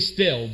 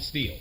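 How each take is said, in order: First: The name has a short vowel, like 'still'. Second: The name has a long vowel, like 'steel'. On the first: This is the technically correct pronunciation. "technically still" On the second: This is the pronunciation the speaker grew up with. "I grew up calling it steel"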